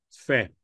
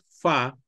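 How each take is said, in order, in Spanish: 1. La vocal es suave, entre a y e. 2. La vocal es una a abierta y simple. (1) "debe sonar un sonido suave entre una A y una E" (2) "No es fa"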